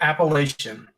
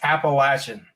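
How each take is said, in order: First: It is said the newscaster's way. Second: It is said the local regional way. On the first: This is how outsiders on television say it. The speaker calls it wrong. "You don't say Appalachian like those news people do on T V" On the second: This is how people in the region say it. The speaker calls it right. "If you're North Carolina, that's how you say it"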